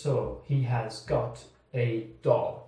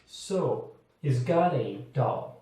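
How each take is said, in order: First: The words are said separately and slowly. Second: The words are joined together and said faster. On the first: The speaker calls it wrong. "they don't say" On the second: The speaker calls it right. "They join it and say it faster"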